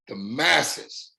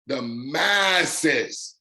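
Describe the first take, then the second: First: Said in the usual way. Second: "masses" stretched long on its first syllable; drawn-out emphasis. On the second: Real, not acted. Speaker tells the guys who can succeed, "masses" drawn out. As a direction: draw out "masses" slowly to drive it home.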